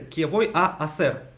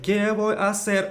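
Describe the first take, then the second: First: Two separate a vowels are heard before ser. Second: The two a sounds merge into one vowel. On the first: "получается кевой а асер" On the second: "Он говорит кевой асер"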